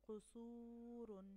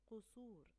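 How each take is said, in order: First: قصور very slow, long و held; slow demo of قصور; drawn-out model word. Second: Said in the usual way. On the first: Shown as a demonstration. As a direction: stretch قصور for the class.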